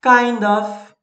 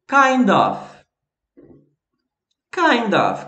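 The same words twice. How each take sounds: First: "Kind of" said clearly as /kaind ɔf/; teacher modelling "Kind of"; model pronunciation. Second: "Kind of" said clearly as /kajnd ɔf/; repeat-after-me model. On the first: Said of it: "também tem kind of". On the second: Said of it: "Repete aí". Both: Shown as a demonstration.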